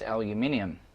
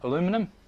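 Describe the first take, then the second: First: It is said with five syllables, British style. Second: It is said with four syllables, American style. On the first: "Over here it's aluminium" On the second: "In the U S you'll pronounce that aluminum"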